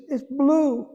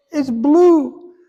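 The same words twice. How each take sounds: First: High, mild imitation of a crying wife; retold tearful wife. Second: High, louder, insisting the second time; insistent repeat. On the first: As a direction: say it lightly, as she said it in tears. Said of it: "and she's crying". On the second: Retold or imitated. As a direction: push it, she won't be doubted.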